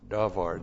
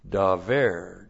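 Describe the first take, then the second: First: The final vowel is an a sound. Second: The final vowel is an e sound. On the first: "then we have the verb davar" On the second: "we would often say in seminary, daver, just so we could tell the difference between a comets and a pathak"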